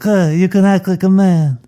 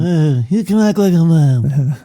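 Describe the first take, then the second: First: Semi-retired Don. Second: Slow, higher take on the Don line; mock Godfather Don. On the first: Acted. Cohost imitates the Don scolding Johnny, hammed-up. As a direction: growl it out like the old Godfather. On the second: Host repeats the Don's line slowly. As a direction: draw it out like the old Don. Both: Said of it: "the old semi-retired Don".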